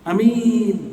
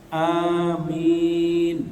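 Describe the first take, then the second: First: Only the second vowel is held long. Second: Both vowels are held long. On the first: A person who can be trusted. The speaker calls it wrong. "a-nya pendek, mi-nya panjang" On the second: Grant it, accept it. The speaker calls it right. "perhatikan a-nya panjang, mi panjang"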